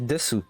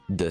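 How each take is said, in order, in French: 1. La voyelle finale u est bien prononcée. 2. La voyelle finale u tombe. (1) "théoriquement, si tu lis comme ça, c'est desu" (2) "Mais en fait, tu vas prononcer des"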